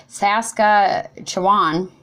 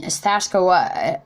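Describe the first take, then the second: First: "Saskatchewan" spelled out slowly, syllable by syllable; slow careful "Saskatchewan", every sound placed; careful retry. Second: "Saskatchewan" clipped off as "Sashka"; botched "Saskatchewan" that trails off; stumbled word. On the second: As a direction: trip over "Saskatchewan", cutting it short. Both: Shown as a demonstration. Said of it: "I can't even say that word".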